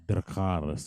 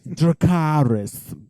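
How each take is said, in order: First: An understated "Dracarys" in imitation of her; imitating her odd delivery. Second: High, drawn-out call; dramatic dragon command. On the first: Showing co-host how she said it, understated odd "Dracarys". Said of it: "She said it like she". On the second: Retold or imitated. Joking to co-host about the show, grand drawn-out command. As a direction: stretch it out like a grand battle cry.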